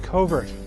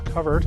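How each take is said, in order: First: The first syllable does not sound like 'cover'. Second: The first syllable sounds like the word 'cover'. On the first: This is the other, more common word. "often confused with the word covert" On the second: This is the word for a thicket that gives animals cover. "the proper pronunciation is covert, and it's related to the word cover"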